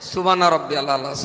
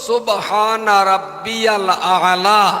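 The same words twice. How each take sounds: First: The Arabic consonants are flattened into plain sounds. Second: Each Arabic consonant is articulated distinctly. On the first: The speaker calls it wrong. "একটারও মাখরাজ উচ্চারণ হয় না" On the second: The speaker calls it right. "আসল"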